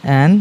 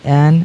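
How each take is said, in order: The two takes are said the same way.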